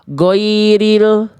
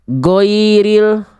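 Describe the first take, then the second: The two takes are said the same way.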